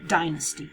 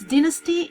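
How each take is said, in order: First: It is said with an American pronunciation. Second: It is said with a British pronunciation. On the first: "in American English uh, you say uh, dynasty" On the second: "dynasty is the English, the British pronunciation"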